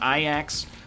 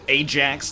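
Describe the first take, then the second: First: The name is given a local, non-anglicized pronunciation. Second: The name is given an anglicized pronunciation. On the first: This is how the name should be said. The speaker calls it right. "not Ajax" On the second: This is how North American fans say it. The speaker calls it wrong. "They probably call it Ajax"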